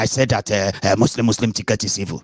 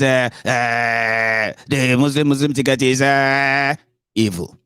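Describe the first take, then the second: First: Said in the usual way. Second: Higher voice with long dragged-out hesitations; Were Wike. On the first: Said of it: "I actually wanted to talk like that". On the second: Retold or imitated. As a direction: stall on a stretched "uh" before the last word. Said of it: "I actually wanted to talk like that when I talk about, uh, Were Wike".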